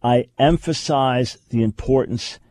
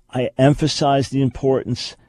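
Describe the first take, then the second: No difference in how they are said.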